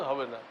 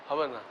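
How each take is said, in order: The two takes are said the same way.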